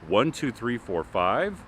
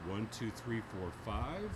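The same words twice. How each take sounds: First: The voice comes from directly in front. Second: The voice comes from behind. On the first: "first straight on" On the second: "Behind the microphone"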